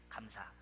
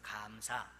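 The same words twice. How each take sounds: First: The first vowel is kept short. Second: The first vowel is held long. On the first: It means an official audit or inspection. "짧은 감사래요" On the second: It means thanks or gratitude. "길게 발음하는 감사래요"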